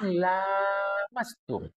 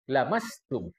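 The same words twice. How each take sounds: First: The first vowel is held long. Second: The first vowel is kept short. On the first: It means having intercourse. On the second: It means touching.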